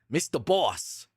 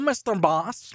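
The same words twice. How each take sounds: First: It is said in a Squidward impression voice. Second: It is said in his Alan character voice.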